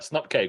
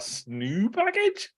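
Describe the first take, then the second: First: It is said as two syllables, snup-keg. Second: It is said as three syllables, snoo-pack-age.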